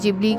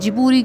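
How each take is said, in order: First: It is said as 'jib-lee' with an L sound. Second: It is said as 'ji-boo-ree' with an R sound. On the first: "English pronunciation में" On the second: "उनकी प्रोनाउंसिएशन में"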